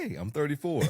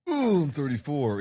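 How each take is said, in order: First: It sounds cheerful and upbeat about the age. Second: It sounds dismayed and weary about the age.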